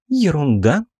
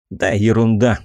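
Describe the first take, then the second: First: "Ерунда?" echoed with a high indignant rise; angry disbelief. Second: Brushing it off with "ерунда" stressed; dismissive. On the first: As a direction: throw the word back, incredulous. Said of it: "зло посмотрела на меня". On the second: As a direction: wave it away lightly. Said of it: "попытался отмахнуться я". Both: Acted.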